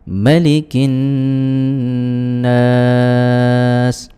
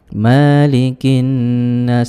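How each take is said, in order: First: The vowel after the m is kept short. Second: The vowel after the m is drawn out long. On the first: It carries a different meaning. The speaker calls it right. "harus pendek mimnya" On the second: It means the same as Lord of mankind. The speaker calls it wrong. "tidak boleh dibaca malikin nas"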